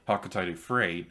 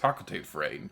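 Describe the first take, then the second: First: The name is said with an extra middle syllable. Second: The name is said without the extra middle syllable. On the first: This is the official pronunciation. "the official pronunciation is Hakotade" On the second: This is the speaker's own habitual pronunciation. "the way I always pronounced it"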